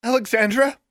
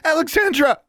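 First: High, rising, anxious call; worried questioning name call. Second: Very high, loud falling cry; alarmed, insistent name call; urgent calling. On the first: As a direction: check if your friend is conscious. Friend rousing her unconscious friend. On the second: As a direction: rouse your friend urgently. Shaking her friend awake. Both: A narrator's reading.

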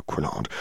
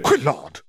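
First: Lower, softer scolding word; low reprimand. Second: Sharp, higher snap at the quill; snapped. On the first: Skeeter scolding her quill, low and soft. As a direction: drop the voice to tell the quill off. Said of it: "Skeeter reprimand the quill". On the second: Skeeter snapping at her quill in anger. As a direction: bark the name out to scold it. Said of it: "Skeeter snapped". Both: A narrator's reading.

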